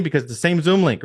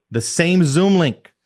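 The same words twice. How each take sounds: First: Said in the usual way. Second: Stressing the point for the team; emphasized. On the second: Shown as a demonstration. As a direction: lean hard on Zoom, slow it down. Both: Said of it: "I wanna emphasize that".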